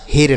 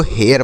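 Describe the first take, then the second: First: हेर with one long "e" straight into r; हेर with a single pure vowel; wrong pronunciation. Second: हेयर with a glide from "e" into "yar"; हेयर, opening into a schwa before the r; correct pronunciation. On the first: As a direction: say हेर as "hay-r", no glide. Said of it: "हेर नहीं पढ़ा जाएगा". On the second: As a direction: say हेयर with two vowel sounds, "he-ar". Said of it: "लेकिन इसको हेयर पढ़ा जाएगा". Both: Shown as a demonstration.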